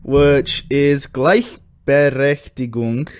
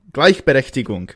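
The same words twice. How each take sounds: First: Gleichberechtigung spoken slowly, sounded out as klaix-pe-rech-ti-gung; German word. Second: Gleichberechtigung at normal pace, a clean German repeat; German word repeated. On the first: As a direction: say Gleichberechtigung carefully, syllable by syllable. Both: Shown as a demonstration. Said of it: "Let's do this one".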